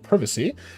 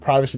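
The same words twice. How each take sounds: First: It is said in a British accent. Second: It is said in a plain American accent.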